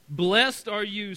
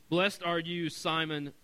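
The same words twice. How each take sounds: First: Excited praise. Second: Said in the usual way. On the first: Acted. Jesus praises Peter, exclamation noted.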